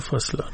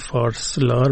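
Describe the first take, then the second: First: No r sound is heard before the s. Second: An r sound is heard before the s. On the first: "میگن فاسلار بله. رش میفته" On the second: "نمیگن فارسلار"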